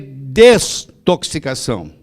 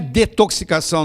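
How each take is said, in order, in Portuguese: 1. A palavra tem som de S depois de 'de'. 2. A palavra não tem som de S depois de 'de'. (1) "tem que usar um S" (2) "Quem fala isso está falando errado"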